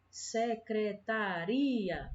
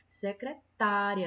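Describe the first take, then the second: First: The stress falls on the syllable ri. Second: The stress falls on the syllable ta. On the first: It names the office where the work is done. "a sílaba mais forte, a sílaba tônica, é uri" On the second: It names the person who does the work. "a sílaba mais forte é o tá"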